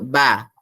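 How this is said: The voice sounds hard and held low. The speaker calls it wrong. "kita tak akan sebut ba"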